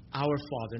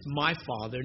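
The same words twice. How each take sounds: First: "Our" leaned on, set against "my"; weight the word "Our" as the point; stress on our. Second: "my" leaned on as the wrong version; weight the word "my" in contrast; stress on my. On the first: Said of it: "not just "my Father". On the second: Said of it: "not just". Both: Shown as a demonstration.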